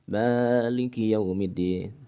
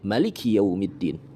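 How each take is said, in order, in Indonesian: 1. Vokal setelah m dibaca panjang. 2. Vokal setelah m dibaca pendek. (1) "dibaca mimnya panjang" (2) "membacanya dengan pendek"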